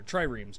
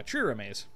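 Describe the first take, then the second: First: "triremes" said as TRY-reemz; alternative pronunciation. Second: "triremes" said as TRIH-ruh-maze; alternative pronunciation. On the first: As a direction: say "triremes" in two syllables, rhyming with "dreams". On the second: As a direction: say "triremes" in three syllables, ending in "maze". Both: Shown as a demonstration. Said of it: "I don't know how those are pronounced".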